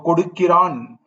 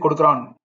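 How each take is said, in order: First: The word is pronounced fully and carefully. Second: The word is pronounced in a shortened, casual way. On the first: It is the refined written style. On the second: It is everyday spoken style.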